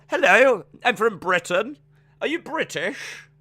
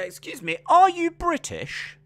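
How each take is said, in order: First: High-pitched mock British accent; exaggerated British accent with a high lilt; put-on British accent. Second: Put-on British accent. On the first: Shown as a demonstration. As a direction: do a hammed-up British hello. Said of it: "do your British accent again". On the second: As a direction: ask it in an exaggerated British accent. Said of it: "why am I putting an accent on".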